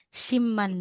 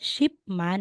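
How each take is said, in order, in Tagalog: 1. Nagtatapos sa tunog na m ang unang pantig. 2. Nagtatapos sa tunog na p ang unang pantig. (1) "kung yung bibigkasin mo siya, shimman na po yan" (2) "talaga is shipman ang spelling"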